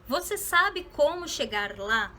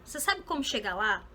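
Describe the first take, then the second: First: Each word is said separately and clearly. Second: The words run together in one connected stream. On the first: "Eu posso pronunciar essa frase dessa forma" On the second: "a gente fala de uma forma bem mais junta, bem mais conectada"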